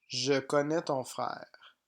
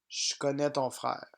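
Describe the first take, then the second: First: 'Je' is said as a full syllable with its vowel. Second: 'Je' is reduced to a short 'sh' sound. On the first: This is how it is written. "Français écrit" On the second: This is how it is spoken casually. "Français parlé. / Je est prononcé ch"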